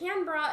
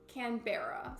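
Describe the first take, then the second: First: The ending sounds like 'bra'. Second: The ending sounds like 'berry'. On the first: The speaker calls it right. "more like bra at the end" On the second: The speaker calls it wrong. "instead of like berry"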